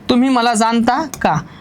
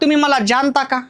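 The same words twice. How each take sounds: First: The ज is said as a dental-palatal sound. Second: The ज is said as a palatal sound. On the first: The speaker calls it right. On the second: The speaker calls it wrong.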